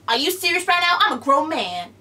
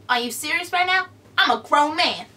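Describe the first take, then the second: First: Kevin Hart impression retry. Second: Kevin Hart impression. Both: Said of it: "that's all I'm gonna do of Kevin Hart".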